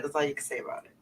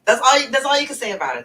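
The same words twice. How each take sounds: First: Said in the usual way. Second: Excited. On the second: Real, not acted. Emphatic point about H-Town accent.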